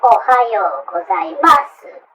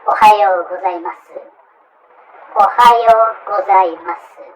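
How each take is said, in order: First: Ohayo gozaimasu stretched slowly with stress on ohayo; bad foreign accent. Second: Ohayo gozaimasu even and level, slowed on the second take; correct polite Japanese. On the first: Teacher shows a learner's bad example. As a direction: drag it out the wrong way. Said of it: "another bad example". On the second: Teacher demonstrates the morning greeting at a company. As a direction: model it flat and clear. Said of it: "let us say". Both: Shown as a demonstration.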